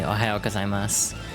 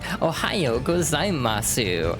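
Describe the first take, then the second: First: The final u is weak, almost silent. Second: The final u is pronounced clearly and fully. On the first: The speaker calls it right. "the U is not supposed to be pronounced very strongly" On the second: The speaker calls it wrong. "a lot of people do the thing where they're like"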